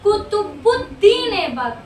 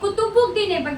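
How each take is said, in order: First: The name is said carefully with separate parts. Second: The name is rushed and run together. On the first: This is how the name actually goes. The speaker calls it right. "जबकि actual में है क्या?" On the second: This is the careless habit from reading names quickly. The speaker calls it wrong. "अब हम लोगों की भी आदत क्या बनी"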